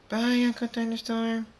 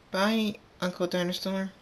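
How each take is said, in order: First: Very high, held sing-out goodbye; chorus of foals. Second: Put-on high-pitched young filly voice; little filly goodbye. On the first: All the foals leaving Uncle Thunderstorm, high chorus. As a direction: sing it out high on one level note, like a group of kids. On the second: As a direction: call it high like a small foal. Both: A narrator's reading.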